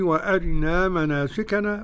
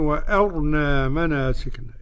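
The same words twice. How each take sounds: First: The r has a brief, partly swallowed i-vowel. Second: The r carries no vowel and sounds heavy. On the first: "اختلاس من كسرة الراء" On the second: "بإسكان الراء"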